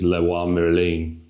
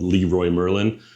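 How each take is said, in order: First: It is said with a French accent. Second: It is said with an English accent.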